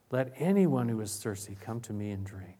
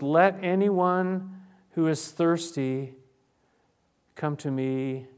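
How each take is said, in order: First: Said in the usual way. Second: Loud, slow proclamation. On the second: Acted. Preacher voicing Jesus at the festival, loud and slow. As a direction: call it out slowly to the festival crowd. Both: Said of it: "he said in a loud voice".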